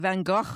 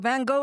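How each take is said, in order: First: The name is said with a Dutch pronunciation. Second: The name is said with an English pronunciation. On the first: "is the Dutch way" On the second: "is the English way"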